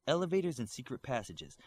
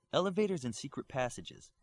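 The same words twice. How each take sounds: The two takes are said the same way.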